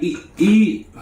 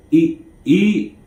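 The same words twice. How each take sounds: First: Much higher, pressing "Eat, eat."; imitating the inmate urging him to eat; urging inmate, higher retake. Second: Higher, urging eat eat; insistent urging. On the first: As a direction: push him to eat, pitched way up. Retake after stutter remark. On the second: Retold or imitated. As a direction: press him to eat. Quoted insisting, first take.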